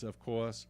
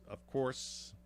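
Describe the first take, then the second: First: Said in the usual way. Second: Slipped into a New York accent. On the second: Real, not acted. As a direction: say it like a native New Yorker. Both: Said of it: "my New York accent came out there".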